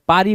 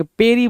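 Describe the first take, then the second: First: पारी with an open "aa", PAA-ree; wrong vowel. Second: पेरी with a long "ay", PAY-ree; contrasted vowel. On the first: Retold or imitated. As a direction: say पारी with "aa" after the p. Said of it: "तो गलत हो गया". (गलत उच्चारण, पारी में "आ" की आवाज़) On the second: Shown as a demonstration. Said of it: "पेरी बोल रहा है". (पेरी में "ए" की मात्रा साफ़)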